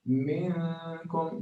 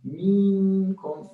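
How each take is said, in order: First: The nasal n sound is held long. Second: The vowel before n is held long. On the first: The speaker calls it right. "instead of minkum" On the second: The speaker calls it wrong. "or the kasra before it two harakat"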